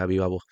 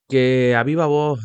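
First: Said in the usual way. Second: Loud, slow, like a referee; referee call. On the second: Real, not acted. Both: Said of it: "me parezco árbitro ahora".

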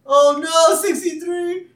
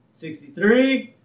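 First: High, loud hammed-up panic; panicked cry. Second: High, drawn-out count; counting aloud. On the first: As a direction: wail it out in mock horror. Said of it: "full range of emotions right there". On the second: Retold or imitated. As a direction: count it out slowly and loudly, building suspense. Abe counts the tugs aloud.

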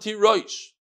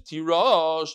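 First: Tirosh ending in "roysh"; read pronunciation. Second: Tirosh ending in "rawsh"; written pronunciation. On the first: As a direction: say tirosh with an "oy" in the last syllable. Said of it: "as if there's a vav there". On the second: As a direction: say tirosh with a plain open vowel, no "oy". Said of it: "v'karinon tirosh". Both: Shown as a demonstration.

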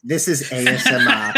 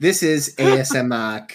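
First: Talking through food; eating into the mic; mouth full. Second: Chewing while speaking; words round a bite of food; mouth full. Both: Real, not acted. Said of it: "are you eating still".

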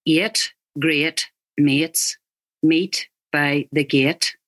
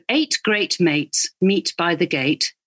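First: Slow Northern Irish vowels, eight as eet; Northern Irish accent. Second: Said in the usual way. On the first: Shown as a demonstration. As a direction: stretch eight great mates the Northern Irish way, slowly.

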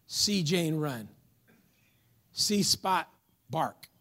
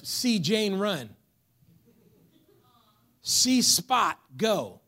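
First: "See Spot bark" read slowly, word by word; slow child reader. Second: "See Spot go" read slowly, word by word; slow child reader. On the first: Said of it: "still at that elementary level". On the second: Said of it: "I like to say it like this". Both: Shown as a demonstration. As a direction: read it like a kindergarten primer.

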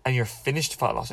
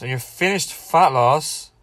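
First: Said in the usual way. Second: Slow and louder, "fat" stressed with a rising tune; emphatic repeat. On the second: Shown as a demonstration. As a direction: lean hard on "fat" and drag the line out.

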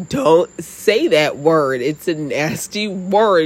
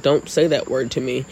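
First: Slow, drawn-out mock telling-off; retold exasperated scolding. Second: Said in the usual way. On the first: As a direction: imitate an appalled dad, stretching each word. Retold dad scolding, escalating.

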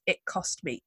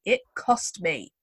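First: Said in the usual way. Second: "cost" drawn out slowly; emphatic repeat. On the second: Retold or imitated.

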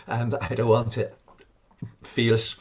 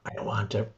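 First: Louder, mock angry refusal; imitating the patient's louder angry protest; retold angry refusal. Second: Said in the usual way. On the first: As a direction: push the refusal out, half acting her anger. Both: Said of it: "she was very angry with me".

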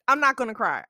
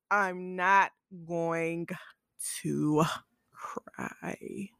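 First: Said in the usual way. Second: Slow, broken up, fading to a whisper; mock holding back tears. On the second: Host promises not to cry, mock holding back tears. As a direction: drag it out word by word, trailing into a breath.

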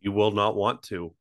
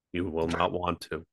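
First: Said in the usual way. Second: Flat, soft monotone read. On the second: Shown as a demonstration. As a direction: drone it out with no life, softer. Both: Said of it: "I will read them in monotone of voice".

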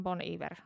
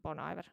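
First: "Iver" said as "ee-VAIR"; reported correct pronunciation. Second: "Iver" said as "EYE-ver"; own habitual pronunciation. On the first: Telling the co-host how it is supposedly said, "Iver" as "ee-vair". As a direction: say "Iver" French-style, with an opening "ee". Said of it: "kuulemma se lausutaan". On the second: Admitting how they always said it, "Iver" as "eye-ver". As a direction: say "Iver" English-style, opening like "eye". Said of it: "Mä oon aina sanonut". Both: Shown as a demonstration.

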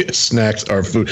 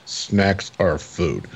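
First: Said in the usual way. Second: Very slow, lower and softer deadpan; imitating a straight-faced monotone. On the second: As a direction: say it in a drawn-out monotone, no expression. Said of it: "like, monotone".

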